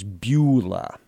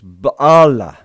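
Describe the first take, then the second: First: The first syllable has a rounded oo-like vowel. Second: The first syllable has an open ah vowel. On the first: This is the usual traditional reading. "typically written out and pronounced as Beulah" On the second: This is what the original text actually says. "But the Hebrew actually says Baalah"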